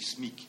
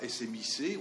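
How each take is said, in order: First: It is pronounced as a single word. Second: It is spelled out letter by letter. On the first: The speaker calls it right. "on dit SMIC" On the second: The speaker calls it wrong. "On ne dit pas SMIC"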